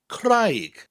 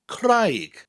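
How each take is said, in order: First: The vowel sounds like 'eye' in high. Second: The same.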